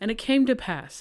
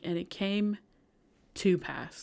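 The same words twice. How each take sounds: First: It is said at a normal, quick pace. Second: It is said slowly, word by word.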